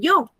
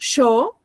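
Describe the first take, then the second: First: The word is said in a neutral accent. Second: The word is said in an Argentine accent.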